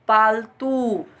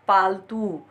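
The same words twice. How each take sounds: First: The final vowel is long. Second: The final vowel is short. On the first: The speaker calls it right. "दीर्घ स्वर का ऊ लगेगा" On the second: The speaker calls it wrong. "जबकि उच्चारण गलत है"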